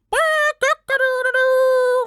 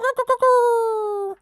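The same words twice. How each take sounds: First: Very high, loud, slow crow; a loud rooster's crow, stretched out. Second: High, loud rooster crow, a little shorter; a loud rooster crow, clipped shorter; second rooster crow. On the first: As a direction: crow at full volume like a rooster. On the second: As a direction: crow again at full voice. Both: Acted. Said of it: "cried out his loudest".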